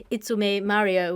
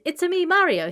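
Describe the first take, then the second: First: Said in the usual way. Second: High cartoonish Italian accent; Mario. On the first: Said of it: "He's actually saying". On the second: Quoting the game character, high cartoonish Italian accent. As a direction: squeak it as a cartoon Italian plumber. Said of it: "in a cartoonish Italian accent".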